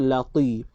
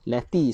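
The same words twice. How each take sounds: First: The t sound is thick and heavy. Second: The t sound is thin and light. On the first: The speaker calls it right. "dia kena lati. Tebalkan" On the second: The speaker calls it wrong. "Lati salah"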